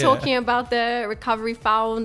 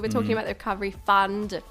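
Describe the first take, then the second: First: The last word has the vowel of found. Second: The last word has the vowel of fun. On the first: The speaker calls it wrong. "it's not a fund. We're not" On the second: The speaker calls it right. "Fund, not found"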